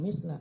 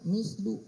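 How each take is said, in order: First: The word ends with an 'a' vowel. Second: The word ends with a 'u' vowel. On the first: The speaker calls it wrong. "Harusnya bukan misla" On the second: The speaker calls it right.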